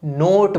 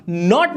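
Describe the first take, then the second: First: नोट with a long, drawn-out o. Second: नॉट with a short open o; short vowel. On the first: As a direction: stretch the vowel in नोट. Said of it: "ओ ना लंबा खींच के पढ़ा जाएगा". (नोट में 'ओ' लंबा खींचकर) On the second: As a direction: say नॉट without stretching the vowel. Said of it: "नॉट नहीं होगा अब ये". (नॉट में छोटा 'ऑ', बिना खींचे) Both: Shown as a demonstration.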